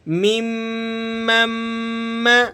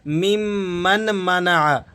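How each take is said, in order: First: The n sound is dropped and merged into m. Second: The n sound is clearly pronounced before m. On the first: The speaker calls it right. "इस नून को आपने अवॉइड कर देना है ... second मीम को आपने third मीम के साथ मिलाकर पढ़ना है" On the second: The speaker calls it wrong. "मैंने अक्सर लोगों को सुना है इस तरह पढ़ते हैं ... तो इस तरह से पढ़ना गलत है"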